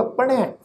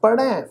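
First: ਪੜ੍ਹੈ said with a light tone on the ੜ and nasal ending; ਪੜ੍ਹੈ ਹਲਕੀ tone ਨਾਲ. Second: ਪੜ੍ਹੈ with the ending sounded like dulavan and a nasal touch; ਪੜ੍ਹੈ ਦਾ ਸਹੀ ਉਚਾਰਨ; careful pronunciation. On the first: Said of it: "ਹਲਕੀ ਜਿਹੀ tone ਵਿੱਚ ਉਚਾਰਨ ਹੋਏਗਾ". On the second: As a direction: say ਪੜ੍ਹੈ with a light h tone on the ੜ. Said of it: "ਪਾਠ ਉਚਾਰਨ ਇੰਜ ਹੋਏਗਾ". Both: Shown as a demonstration.

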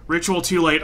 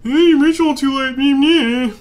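First: Said in the usual way. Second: High, loud taunting parody; mock the game in a silly high voice; whiny sing-song jeer; mocking mimicry. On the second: Mockingly mimics the game's message.

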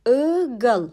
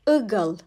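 First: "Igıl" drawn out as I-gıl; syllable-by-syllable pronunciation. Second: Said in the usual way. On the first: Shown as a demonstration. Teacher showing the letter I in "Igıl", syllable by syllable. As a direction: lengthen the first vowel of "Igıl", then gıl. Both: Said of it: "I harfi".

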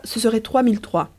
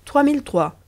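First: Said in the usual way. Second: Higher, questioning repeat of the price; mock surprise at the price. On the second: A narrator's reading. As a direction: echo the sum as if it's a lot. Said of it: "répéta Riquet".

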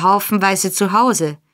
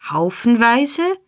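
First: Said in the usual way. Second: Haufenweise stretched slow and high in mock dismay; comic horror. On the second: A narrator's reading. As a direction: gasp the word Haufenweise like a scandalized miser. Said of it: "rief der Jude in komischem Entsetzen".

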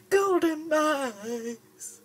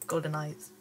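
First: GOLDEN EYES stretched out slowly, much higher and louder; drawn-out shout. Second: Said in the usual way. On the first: Shown as a demonstration.

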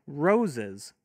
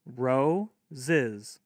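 First: Said in the usual way. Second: Ro-ziz broken into two beats; split into syllables. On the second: Shown as a demonstration. Teacher modelling clapping for kids, ro-ziz in two beats. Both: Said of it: "have your kids clap".

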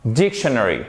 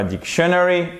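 First: "dictionary" with the accent on the first syllable; correct pronunciation. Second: "dictionary" as a learner mistakenly says it, stress misplaced; "dictionary" with the accent off the first syllable; wrong pronunciation. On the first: Teacher correcting students on word stress, "dictionary" stressed on its first syllable. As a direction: stress the opening DIC of "dictionary". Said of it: "mais c'est bien dictionary". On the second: Teacher showing students the mistake to avoid, mispronounced "dictionary". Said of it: "C'est pas dictionary". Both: Shown as a demonstration.

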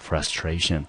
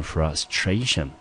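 First: Frustration said alone, softly, stress on stra; stress before tion. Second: Frustration with the stress on stra, before tion. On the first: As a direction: model Frustration once more, stressing stra. (单独再读一遍Frustration，重音在stra) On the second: (重音放在tion前面的音节) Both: Shown as a demonstration. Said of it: "重音呢要落在tion前面的那个音节".

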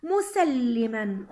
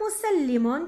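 First: مسلما very slow, as "musalliman"; tanween fath ending. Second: مسلم drawn out as "musallimun"; tanween damm ending. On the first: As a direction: draw out مسلما to a clear -an. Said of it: "أحوله إلى تنوين فتح". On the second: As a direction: slowly sound the -un ending of مسلم. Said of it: "تنوين ضم". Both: Shown as a demonstration.

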